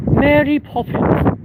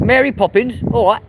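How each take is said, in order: First: High, drawn-out put-on voice; put-on Mary Poppins. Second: High-pitched Cockney; Cockney accent. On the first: Streamer performing Mary Poppins on request, high put-on voice. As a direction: say it very high and slowly, as a character. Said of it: "Say Mary Poppins?". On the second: Londoner saying Mary Poppins on request in a high Cockney accent. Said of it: "Poppins with a Cockney accent?". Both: Shown as a demonstration.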